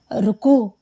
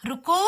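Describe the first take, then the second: First: Short, mildly husky call of a name; hoarse call. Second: Calling from outside. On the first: Husband calls his wife who will not turn, hoarse. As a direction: call "ருக்கு" briefly, a touch hoarse. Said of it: "கரகரப்பான குரலில் அழைக்க". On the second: Husband calls his wife from the porch, calling out. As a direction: call "ருக்கு" long, lifting the end. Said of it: "சுப்புனியின் குரல்". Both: A narrator's reading.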